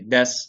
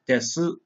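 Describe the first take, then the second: First: The final 'u' vowel is dropped entirely. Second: The final 'u' vowel is clearly pronounced. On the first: It is the normal everyday form. The speaker calls it right. "normally when people are speaking, they just say des" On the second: It is used for emphasis. The speaker calls it wrong. "we don't say desu"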